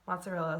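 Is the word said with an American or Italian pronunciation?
American. It is said with an American pronunciation. The speaker calls it wrong. "not mozzarella"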